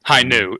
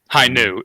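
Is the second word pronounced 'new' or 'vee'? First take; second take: new; new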